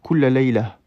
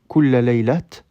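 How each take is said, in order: First: The last word ends with a light h sound. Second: The last word ends with a t sound. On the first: The speaker calls it right. "un léger ha, auquel on ajoute un soukoun" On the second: The speaker calls it wrong. "on ne dira pas kulla laylat"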